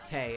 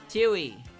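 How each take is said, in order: First: The W is silent. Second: The W is pronounced as spelled. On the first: The speaker calls it right. "the W in Tay's name is basically silent" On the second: The speaker calls it wrong. "I called her Tui"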